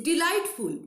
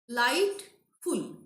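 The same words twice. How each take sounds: First: Said in the usual way. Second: "Delightful" slowly, de... light... ful; long gaps between the three parts of "Delightful"; syllable by syllable. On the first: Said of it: "we are pronouncing at a stretch". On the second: Shown as a demonstration. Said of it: "Three syllable".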